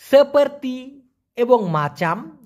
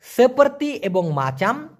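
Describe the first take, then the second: First: সেপার্তি এবং মাচাম said slowly, syllable by syllable; slow clear pronunciation. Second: সেপার্তি এবং মাচাম repeated slowly and clearly; repeated slow pronunciation. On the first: Teacher slowly modelling Malay words for students. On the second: Teacher repeating Malay words slowly for students. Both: Shown as a demonstration. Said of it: "আমি আবার বলতেছি".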